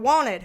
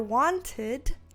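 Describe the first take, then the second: First: The middle T is dropped, Southern style. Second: The middle T is clearly pronounced. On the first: "say it in a damn southern way" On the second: "pronounce the T in wanted"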